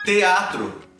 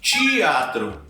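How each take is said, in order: First: The first sound is a plain t. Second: The first sound is a ch sound. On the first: "você pode supor que essa pronúncia ela vai se manter" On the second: "aqui eu estou quebrando a própria regra"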